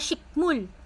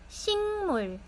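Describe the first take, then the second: First: The middle sound is a hard k. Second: The middle sound is a nasal ng. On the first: The speaker calls it wrong. "hindi na shikmul" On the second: The speaker calls it right. "Nag-iiba po yung sound niya"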